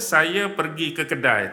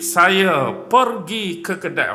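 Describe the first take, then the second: First: It is said in a plain speaking voice. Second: It is recited dramatically like a poem.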